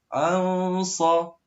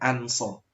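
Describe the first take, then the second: First: The n sound is blurred and hidden. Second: The n sound is pronounced clearly. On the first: The speaker calls it right. "harus dibaca samar-samar" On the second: The speaker calls it wrong. "tidak boleh an sa. Tidak boleh dibaca jelas"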